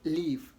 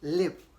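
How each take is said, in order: First: The vowel is long, as in 'leave'. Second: The vowel is short, as in 'live'. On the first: The speaker calls it wrong. "it's wrong to pronounce both as leave" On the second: The speaker calls it right. "L I V E is pronounced as live"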